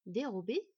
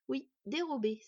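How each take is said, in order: First: Questioning, rising repeat of the word; surprised echo. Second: Irritated confirmation, falling at the end; annoyed. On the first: Boy echoes the elf's word, surprised. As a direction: repeat it automatically, mildly surprised. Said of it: "répéta machinalement le garçon surpris". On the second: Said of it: "s'agaça l'elfe". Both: A narrator's reading.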